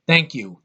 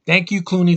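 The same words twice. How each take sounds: First: Said in the usual way. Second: "Thank" punched higher and louder, mocking gratitude; sarcastic stress on Thank. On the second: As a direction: lean hard on "Thank you" with sarcasm.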